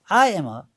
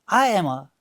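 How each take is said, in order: Both takes have the same delivery.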